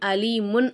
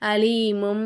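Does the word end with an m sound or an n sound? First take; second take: n sound; m sound. First: The word ends with an n sound. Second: The word ends with an m sound. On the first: The speaker calls it wrong. "அப்படின்னு சொல்லாம" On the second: The speaker calls it right. "அந்த மாதிரி நம்ம ஓதணும்"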